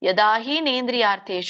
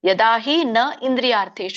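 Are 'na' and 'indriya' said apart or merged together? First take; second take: merged; apart. First: 'Na' and 'indriya' merge into one word, 'nendriya'. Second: 'Na' and 'indriya' are said as separate words. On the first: "ಇಲ್ಲ ಅಂದ್ರೆ ಯದಾಹಿ ನೇಂದ್ರಿಯಾರ್ಥೇಶು ಅಂತಾನು ಕೂಡ ಹೇಳ್ಬೋದು" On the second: "ಯದಾಹಿ ನ ಇಂದ್ರಿಯಾರ್ಥೇಶು ಅಂತ ಹೇಳ್ಬೋದು ನೀವು"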